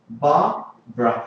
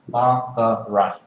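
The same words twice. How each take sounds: First: The name is said with two syllables. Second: The name is said with three syllables. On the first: "in spoken English it has two" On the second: "in theory it has three syllables"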